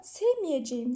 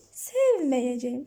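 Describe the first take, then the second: First: Sevmeyeceğim said as "sevmiyeceğim", e narrowed to i; the colloquial narrowed sevmeyeceğim, marked wrong; wrong narrowed form. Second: Sevmeyeceğim said slowly with an open e, "sev-me-ye-ce-ğim"; slow correct form. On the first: Teacher showing students the incorrect spoken form. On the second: Teacher slowly modelling the correct form for students. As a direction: stretch out sevmeyeceğim clearly and correctly. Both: Shown as a demonstration. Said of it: "sevmeyeceğim değil".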